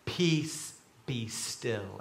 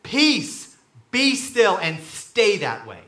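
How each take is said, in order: First: Softly, slipping lower and quieter; hushed reading. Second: Firm, loud parental command; parent to child. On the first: A narrator's reading. Reading Jesus' words to the sea, hushed. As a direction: read it low and hushed. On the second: Acted. Jesus to the storm like a parent, firm command. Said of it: "like a parent talking to a child".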